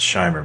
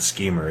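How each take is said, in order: First: The first vowel sounds like 'eye'. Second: The first vowel sounds like 'ee'. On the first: The speaker calls it right. "it's Scheimer" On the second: The speaker calls it wrong. "his name's not Schemer"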